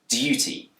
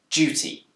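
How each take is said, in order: First: The word begins with a plain D sound. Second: The word begins with a J-like sound. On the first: "this word can be pronounced with a d sound" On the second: "but it's also commonly pronounced with a j sound"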